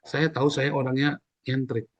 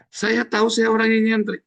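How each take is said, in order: First: Said in the usual way. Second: Much higher and louder, proclaiming it; emphatic repeat. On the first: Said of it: "repeated louder". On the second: Shown as a demonstration. Preacher proclaiming to the congregation that he is eccentric, loud and high. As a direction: belt out "nyentrik" high and loud. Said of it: "repeat of 141".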